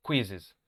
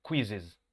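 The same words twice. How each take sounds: First: "Quizzes" said KWIZ-iz, first syllable stressed. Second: "quizzes" with stress on the first syllable, KWIZ-iz; pronouncing quizzes. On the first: Teacher marking the accent for students. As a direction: lean on the "Quiz" of "Quizzes". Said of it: "El acento va en la primera sílaba". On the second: Teacher showing the pronunciation to the class. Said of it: "Así se pronuncia esta palabra". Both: Shown as a demonstration.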